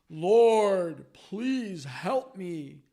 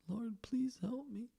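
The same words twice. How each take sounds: First: It is said in a strong, mighty voice. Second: It is said in a weak, small voice.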